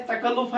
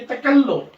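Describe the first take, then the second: First: तकल्लुफ़ said lightly with a short l; unstressed pronunciation. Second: तकल्लुफ़ with a held double l, ta-kal-luf; taught pronunciation. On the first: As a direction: pass quickly over the ल in तकल्लुफ़. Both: Shown as a demonstration. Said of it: "इसको हम पढ़ेंगे".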